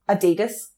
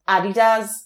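First: It is said in an American way. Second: It is said in a non-American way.

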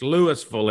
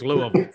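First: Louisville is pronounced the Mississippi way. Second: Louisville is pronounced the Kentucky way. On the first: This is how the Mississippi town is named. "It's Louisville in Mississippi" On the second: This is how the Kentucky city is named. "So in Kentucky, it's Louisville"

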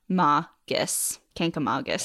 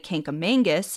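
First: No N sound comes before the G. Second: An extra N sound comes before the G. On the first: The speaker calls it right. "The correct way to say it is Kinkamongus" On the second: The speaker calls it wrong. "try to put a second N in the word and say Kinkamongus"

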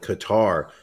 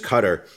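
First: The stress is on the second syllable. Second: The stress is on the first syllable. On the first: The speaker calls it wrong. "They put the emphasis on the second syllable" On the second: The speaker calls it right. "I believe the proper pronunciation has it on the first"

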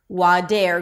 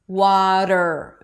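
First: A full E vowel comes before the R. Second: The flap goes straight into the R sound. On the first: The speaker calls it wrong. "It's not dare, wader" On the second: The speaker calls it right. "there is no vowel between the flap T and the R"

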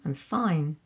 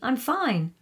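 First: The reply sounds curt and irritated. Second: The reply sounds relaxed and friendly. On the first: The speaker is upset with the listener. "I get the feeling I might be in trouble from your tone of voice in the second one" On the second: The speaker really is fine.

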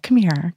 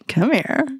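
First: It sounds soft and caring. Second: It sounds playful and flirtatious. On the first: The listener needs a little extra love. "speaking to somebody who needs a little extra love" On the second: The speaker is flirting. "we can get into really flirty"

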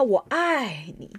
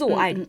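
First: The word 爱 is drawn out long. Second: The word 爱 is said short.

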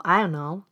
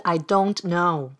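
First: The words are run together quickly. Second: Each word is said clearly and separately.

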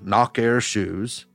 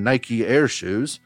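First: It is said with a Southern accent. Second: It is said with a Northern accent.

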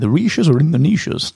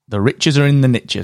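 First: 'Niches' sounds like 'neeshes', British style. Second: 'Niches' rhymes with 'riches', American style. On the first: "It doesn't sound the same in the UK" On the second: "if you're in the US, we're talking niche"

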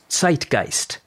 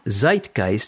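First: The word is said with a German pronunciation. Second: The word is said with an English pronunciation. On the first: The speaker calls it right. "But the German pronunciation of the word is Zeitgeist" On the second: The speaker calls it wrong. "Not Zeitgeist, as is commonly spoken by a lot of Englishers"

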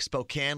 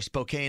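First: The last syllable rhymes with the word can. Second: The last syllable rhymes with the word cane. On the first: "Spokane like a can of Coke" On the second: "Spokane like a candy cane"

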